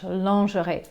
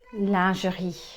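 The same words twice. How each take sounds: First: The word has the usual English pronunciation. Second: The word has the original French pronunciation. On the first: The speaker calls it wrong. "we pronounce it lingerie in English, ... which is actually the incorrect pronunciation" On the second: The speaker calls it right. "the correct pronunciation is lingerie"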